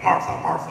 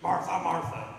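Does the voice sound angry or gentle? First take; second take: angry; gentle. First: The name is said harshly, with an angry tone. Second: The name is said softly, with a gentle tone. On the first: The speaker is scolding the listener. The speaker calls it wrong. "I don't think he was saying it bad to her, like" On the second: The speaker is not upset with the listener. The speaker calls it right. "She's just isn't angry at Martha"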